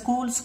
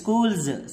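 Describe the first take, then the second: First: The word ends with an s sound. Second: The word ends with a z sound. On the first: The speaker calls it wrong. "స్కూల్స్ కాదు" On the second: The speaker calls it right. "అది స్కూల్స్"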